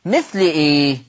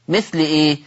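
No difference in how they are said.

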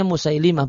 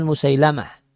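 First: Musailimah with an "i" in the third syllable, "li"; correct reading Musailimah. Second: Musailamah with an "a" in the third syllable, "la"; mistaken reading Musailamah. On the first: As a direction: say Musailimah, ending -limah rather than -lamah. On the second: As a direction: say Musailamah, ending -lamah rather than -limah. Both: Shown as a demonstration. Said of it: "cara bacanya Musailimah, bukan Musailamah".

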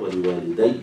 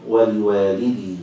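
First: ولوالدي with final "-dayy"; doubled final ya. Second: ولوالدي drawn out, ending in long "-dee"; singular ending. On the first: Teacher shows the common reading, ولوالدي with doubled ya. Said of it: "بالتشديد". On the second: Teacher shows the variant reading, ولوالدي with singular long-i ending. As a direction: say ولوالدي as waliwalidee, no doubled y. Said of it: "على الإفراد". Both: Shown as a demonstration.

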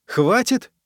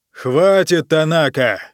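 First: High rising disbelieving question; incredulous echo. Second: Sharp loud shout to silence him; angry bark. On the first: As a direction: throw the word back at him. Echoes the emperor in disbelief. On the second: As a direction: snap the name like an order. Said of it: "рявкнул император". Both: Acted.

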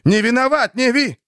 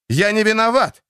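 First: Higher, louder, breaking into sobs; sobbing cry. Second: High loud pleading cry; desperate cry. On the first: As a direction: plead through tears, voice breaking. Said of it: "Плача". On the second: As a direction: cry out your innocence. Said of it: "хотелось крикнуть ему". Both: A narrator's reading.

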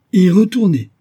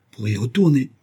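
First: Very high, loud exclamation; incredulous echo. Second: Said in the usual way. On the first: A narrator's reading. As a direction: explode at the absurd idea. Professor echoes answer in disbelief.

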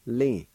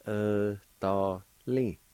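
First: Said in the usual way. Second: "Italy" drawn out slowly, each syllable clear. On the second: Shown as a demonstration. Teacher to learners, slow careful pronunciation. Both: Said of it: "now, I'll pronounce these words".

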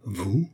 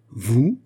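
First: Understated incredulous question, rising; disbelieving question. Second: Stronger disbelief, sharply rising question; incredulous repeat. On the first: Mother thinking her daughter mad, understated rising disbelief. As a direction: ask it in hushed disbelief. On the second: Mother thinking her daughter mad, astonished rising repeat. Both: A narrator's reading. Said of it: "répéta la princesse, qui crut sa fille folle".

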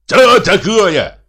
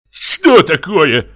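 First: Higher, drawn-out mocking shout; shouted retort. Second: Loud, slow, indignant demand; indignant question. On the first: Scandalous brother echoing the question, shouted retort. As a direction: throw the question back, loud and very high. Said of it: "закричал Михей Егорыч". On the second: Reddened brother to the intruder, indignant question. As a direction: draw it out, high and affronted. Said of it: "спросил покрасневший Егор Егорыч". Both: A narrator's reading.

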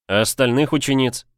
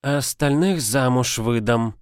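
First: Said in the usual way. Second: Put-on a smirk in the old witch voice; smirking old woman. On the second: A narrator's reading. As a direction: answer with a little snort. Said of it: "хмыкнула старуха".

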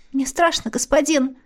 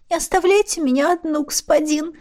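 First: Put-on frightened girl. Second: Put-on high, timid girl's plea; frightened babble. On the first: Scared girl pleads. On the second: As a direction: lisp it out like a scared girl. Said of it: "пролепетала девчонка". (испуганно пролепетав)

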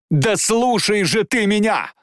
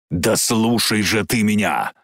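First: High, drawn-out cry; impassioned, pitched-up slow shout; desperate plea. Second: Slow, insistent demand at usual pitch; contained, drawn-out insistence; restrained plea. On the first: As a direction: cry out to make him listen. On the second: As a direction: press him to listen without crying out. First take of Jane's plea. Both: Acted.

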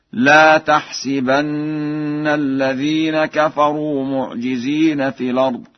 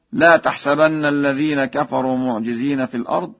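First: Slow chant, "تحسبن" said tahsibanna; kasra on the sin. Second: Said in the usual way. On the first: Shown as a demonstration. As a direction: hold the double n, si in "تحسبن". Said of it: "بكسر السين في الفعل تحسبن". (ترتيل بكسر سين "تحسبن") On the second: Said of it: "فقد قرأ ورش".

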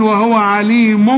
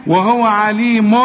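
First: عليم ending "mum" instead of "mun"; tanween turned m. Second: Slow عليم ending in clear "mun"; clear tanween. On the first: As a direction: close عليم on a hummed m. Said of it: "اقلب التنوين إلى ميم". (إقلاب تنوين عليم ميمًا) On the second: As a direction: sound an n at the end of عليم. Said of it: "ادي تنوين". (إظهار نون التنوين في عليم) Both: Shown as a demonstration.

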